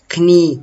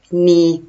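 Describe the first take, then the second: First: The initial k sound is pronounced. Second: The initial k sound is silent. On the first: The speaker calls it wrong. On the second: The speaker calls it right.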